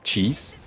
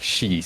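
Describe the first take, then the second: First: It starts with an English ch sound. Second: It starts without an English ch sound. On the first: "we don't really have the ch sound in like" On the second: "So you say it like"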